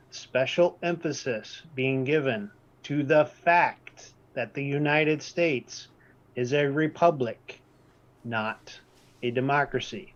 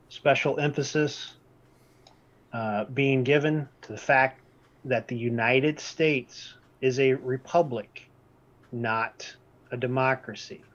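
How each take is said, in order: First: Slow, deliberate, with a pause before "not"; emphatic repeat. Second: Said in the usual way. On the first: Shown as a demonstration. Presenter repeating the key point to the class, slowly and emphatically. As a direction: lean on every phrase so "republic" and "not a democracy" land. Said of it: "Third time for emphasis". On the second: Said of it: "I repeat".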